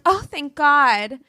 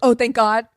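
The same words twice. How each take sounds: First: It sounds sincere and relieved. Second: It sounds sarcastic and eye-rolling.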